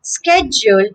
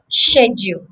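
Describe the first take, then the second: First: SKED-jool for "schedule"; American "schedule", SKED-jool; American pronunciation. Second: SHED-yool for "schedule"; British "schedule", SHED-yool; British pronunciation. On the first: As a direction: begin "schedule" with sk. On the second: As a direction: begin "schedule" with sh. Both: Shown as a demonstration.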